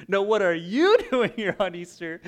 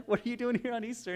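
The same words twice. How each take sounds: First: "you" punched high and loud; stress on YOU. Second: Said in the usual way. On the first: Retold or imitated. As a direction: throw the question back, hitting "you" hard, laughing. Neighbor throws the question back.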